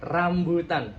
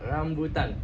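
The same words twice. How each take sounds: First: RAMBUTAN opening on a strong rolled R; touch the gum and roll the R in RAMBUTAN; trilled R. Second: RAMBUTAN with the tongue off the gum, no trill; untrilled R. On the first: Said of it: "Kalau bersentuhan". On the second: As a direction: let the R of RAMBUTAN go slack. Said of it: "Kalau ini nggak bersentuhan". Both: Shown as a demonstration.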